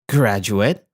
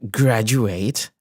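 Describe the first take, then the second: First: It is pronounced as the noun form. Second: It is pronounced as the verb form. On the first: It names a person who has finished studies. "Graduate as a noun" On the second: It names the act of finishing studies. "graduate as a verb"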